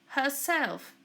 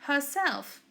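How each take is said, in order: Both takes have the same delivery.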